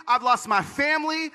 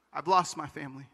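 First: High, aggrieved protest; anguished accusation, re-enacted; angry at God. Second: Low, soft statement of loss; subdued and sorrowful; resigned. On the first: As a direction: throw it up at God, pitched high. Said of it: "I was so angry at God". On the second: Retold or imitated. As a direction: say it quietly, the fight gone. Resigned aftermath of the angry protest.

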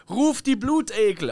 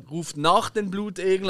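First: Imitating a king echoing through the hall; mock king's command. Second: Said in the usual way. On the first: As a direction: call it out like a king ordering his court. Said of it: "rief er so durch den Hall".

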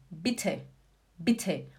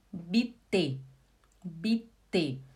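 First: "Bitte" quick, short i, puffed t; German aspirated T. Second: "Bitte" slow as "bi-tê", unaspirated t; two even low syllables in "Bitte", no puff; Portuguese T. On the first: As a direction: let air burst out on the t of "Bitte". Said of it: "Agora em alemão". ("Bitte" alemão, com t soprado) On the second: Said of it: "Vou falar igual o português". ("Bitte" à portuguesa, sem sopro) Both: Shown as a demonstration.

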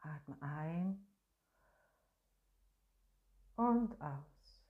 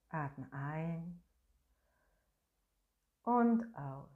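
No difference in how they are said.

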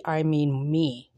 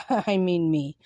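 First: Said in the usual way. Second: Laughing. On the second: Real, not acted. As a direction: repeat it with a little laugh. Repeats the joke, laughing.

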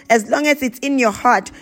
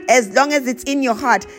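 Both takes have the same delivery.

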